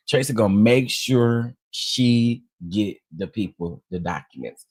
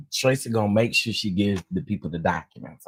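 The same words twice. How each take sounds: First: "make sure she get the people", punched out word by word; measured emphasis. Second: Said in the usual way. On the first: Real, not acted. Repeats it slowly for emphasis.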